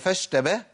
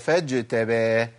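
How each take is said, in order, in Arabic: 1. الحرف بعد fa هو صوت sh. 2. الحرف بعد fa هو صوت j. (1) "هي فش" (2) "ولا فاج"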